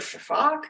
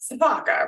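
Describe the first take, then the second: First: It starts with sh and drops the final vowel. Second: It starts with s and keeps the final vowel. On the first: "S I pronounce like an S H, um, and I don't pronounce an A on the end" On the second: "people who don't know will say"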